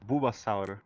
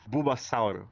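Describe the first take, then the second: First: It has a Brazilian accent with a final vowel. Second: The same.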